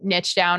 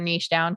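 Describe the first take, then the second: First: Niche is said in an American way. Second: Niche is said in a British way.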